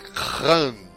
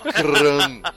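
First: The first sound is a throaty, rasping k. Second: The first sound is a plain hard k. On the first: The speaker calls it right. "é Khan" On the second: The speaker calls it wrong. "Não é Khan"

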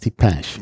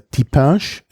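First: It has the Parisian vowel quality. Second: It has the standard French vowel quality. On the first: "Pariserisch ist Tipinche" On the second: "Tipinche ist Französisch"

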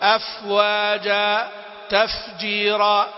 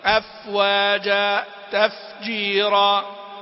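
First: The f is said with a large, exaggerated rush of breath. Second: The f is said with a moderate, even flow of breath. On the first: The speaker calls it wrong. "وفي البعض يبالغ" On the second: The speaker calls it right. "فبالاعتدال"

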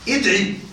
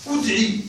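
First: The first vowel is an i sound. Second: The first vowel falls between i and u. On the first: "الوجه الثاني الكسر وهو الأفصح" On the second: "الوجه الثالث الإشمام"

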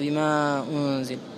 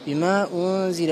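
First: The vowel of 'ma' is drawn out long. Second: The vowel of 'ma' is held only briefly. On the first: This is not how this reading tradition recites it. "ما يقرأها بما أنزل" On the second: This is how this reading tradition recites it. "يقرأ بحركتين"

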